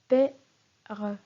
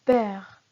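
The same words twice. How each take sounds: First: "P-R" said as pè... re, final mute e sounded; split into syllables. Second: Said in the usual way. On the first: Shown as a demonstration. Teacher shows the mute E in père, "P-R" said as two syllables. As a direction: break "P-R" into pè and re, pausing between. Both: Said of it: "la syllabe suivante est re".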